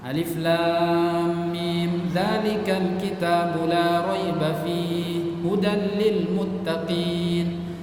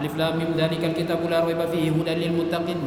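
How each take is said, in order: First: It is recited slowly and clearly. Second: It is recited quickly and hurriedly. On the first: The speaker calls it right. "Bacanya seperti itu, tidak cepat" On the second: The speaker calls it wrong.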